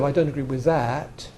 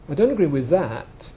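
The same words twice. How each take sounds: First: The final t is released as a clear t. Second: The final t is replaced by a glottal stop. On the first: "Instead of" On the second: "It's just turning the consonant into a glottal stop"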